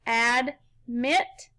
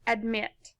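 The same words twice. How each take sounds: First: "admit" split in two, ad, pause, mit; syllable by syllable. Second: Said in the usual way. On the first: Shown as a demonstration. Teacher putting the syllables together for pupils, "admit" in two pieces. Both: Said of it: "Put 'em together".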